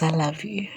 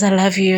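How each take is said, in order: First: Softer and lower, tender; soft tender murmur. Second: Said in the usual way. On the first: Retold or imitated. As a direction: say it gently like a lover. His tender words, softened.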